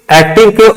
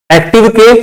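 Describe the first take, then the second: No difference in how they are said.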